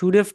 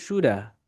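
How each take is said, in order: First: It ends with a v sound. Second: It ends with a weak vowel, no v.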